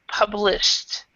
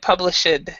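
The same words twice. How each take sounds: First: The ending is said as a short T sound. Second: The ending is said as an extra syllable. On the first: The speaker calls it right. "it's a T sound" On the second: The speaker calls it wrong. "you said published"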